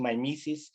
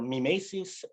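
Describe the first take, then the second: First: The word is pronounced the English way. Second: The word is pronounced the classical way. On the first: "I'm now conforming to the English version" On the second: "if you're uh, a classicist, you will go for mimesis"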